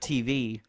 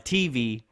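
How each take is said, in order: First: The stress is on the second syllable. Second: The stress is on the first syllable. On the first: "instead of" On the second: "you put an emphasis on the T"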